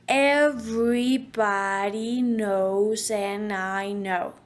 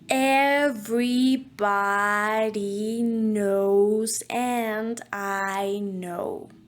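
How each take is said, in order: First: It is said more quickly. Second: It is said very slowly.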